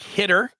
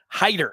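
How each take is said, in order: First: The first vowel is short, as in 'hit'. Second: The first vowel is long, as in 'hide'. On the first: This is how the spelling seems to read. The speaker calls it wrong. "it looks like Hitter if you're looking at his name" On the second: This is how the player says his own name. The speaker calls it right. "he gives you the pronunciation right there"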